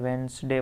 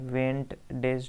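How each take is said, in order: First: The middle d sound is silent. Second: The middle d sound is pronounced. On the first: The speaker calls it right. "यहाँ पे डी silent होता है, वेंसडे पढ़ते हैं" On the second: The speaker calls it wrong. "वेंट डेज नहीं पढ़ते"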